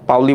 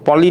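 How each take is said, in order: First: The surname has an 'ow' gliding vowel. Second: The surname has a plain 'o' vowel. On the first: The speaker calls it right. "পাউলি বললে ভালো লাগে" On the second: The speaker calls it wrong. "পলি না"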